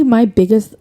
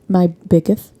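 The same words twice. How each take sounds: First: Said in the usual way. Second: "biggest" lisped, ending in a th sound; slight lisp. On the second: Real, not acted. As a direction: let the s in "biggest" slip to th. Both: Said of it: "like, do I have a lisp?".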